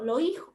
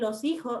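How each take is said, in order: First: The s sounds are aspirated or dropped. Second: The s sounds are clearly pronounced. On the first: "No pronuncia la S" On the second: "en vez de decir"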